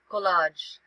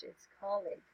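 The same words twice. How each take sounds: First: "collage" said the wrong way, like the French word, with a stressed long -lahzh ending; wrong pronunciation. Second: "colleague" said as KOL-eeg, with the stress on the first syllable; correct pronunciation. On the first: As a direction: mispronounce "collage" as koh-LAHZH. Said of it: "Some people, uh, pronounce it as". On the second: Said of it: "But it's not collage". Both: Shown as a demonstration.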